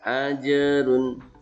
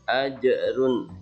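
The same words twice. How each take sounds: First: The j bounces lightly with no glottal catch. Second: The j bounces with a glottal, hamzah-like catch. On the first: The speaker calls it right. "Yang benar ajrun" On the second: The speaker calls it wrong. "kalau mau dikubrokan ini bacanya berarti ajrun, itu salah"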